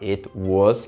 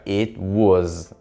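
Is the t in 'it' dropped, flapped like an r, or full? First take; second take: full; dropped. First: The t sound is fully pronounced. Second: The t sound is left out. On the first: "que está perfeito" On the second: "Você não tem esse som do T"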